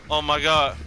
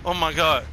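Both takes have the same delivery.

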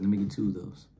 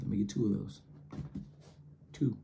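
First: Low casual order. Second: Hushed repeat. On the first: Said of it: "I was like". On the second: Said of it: "I said". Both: Retold or imitated.

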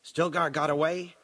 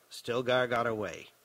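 First: STILGAR GOT AWAY as a question, pitched up; lifted, querying "Stilgar got away?". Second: STILGAR GOT AWAY as a statement, falling; confirming statement. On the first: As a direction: ask "Stilgar got away?" seeking confirmation. Question, then the answer to it. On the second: Answer to the same words asked. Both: Acted.

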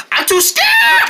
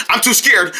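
First: Sudden, extremely high panicked scream; scared shriek. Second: Said in the usual way. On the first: Acted. Scared poodle refusing to calm down, shrieking. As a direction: shriek the last word in cartoon terror. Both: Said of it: "I'm too scared to calm down".

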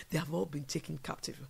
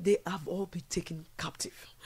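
First: Said in the usual way. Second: Whisper. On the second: Acted. Sad repeated lament, whispered take.

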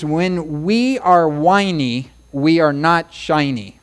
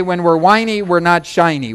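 First: Slow, deliberate sing-song rhyme. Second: Said in the usual way. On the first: Shown as a demonstration. Preacher teaching a rhyme to remember, slowly. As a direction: draw each line out for memory. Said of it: "I like to rhyme things".

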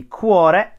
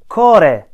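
First: "cuore" said with a "kw" glide, "kwo-re"; standard Italian. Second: "Core" said with no glide, plain "ko-re", strongly stressed; Romanesco dialect. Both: Shown as a demonstration. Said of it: "in standard, standard Italian would be".

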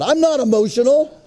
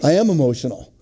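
First: High-pitched protest of innocence; mock indignant denial. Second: Subdued, matter-of-fact confession; sheepish admission. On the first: Husband denies his wife's charge, in high mock indignation. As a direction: protest too much, pitch jumping up. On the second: Acted. Husband concedes his wife was right, in a subdued admission. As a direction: drop the protest and own up.

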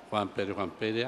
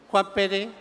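First: Much lower, hushed muttering; absent-minded low murmur; muttered list-checking. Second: Said in the usual way. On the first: Acted. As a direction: repeat the name under your breath as you search. Devil searches his list.

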